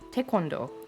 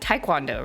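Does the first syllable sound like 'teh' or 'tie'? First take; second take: teh; tie. First: The first syllable sounds like 'teh'. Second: The first syllable sounds like 'tie'. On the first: The speaker calls it right. "in Korean it's technically pronounced" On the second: The speaker calls it wrong. "a lot of people pronounce it Taekwondo"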